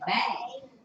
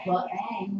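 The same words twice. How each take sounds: First: The b leads straight into the vowel. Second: An extra uh vowel follows the b. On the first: The speaker calls it right. "we say bang" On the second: The speaker calls it wrong. "we don't say the word bang"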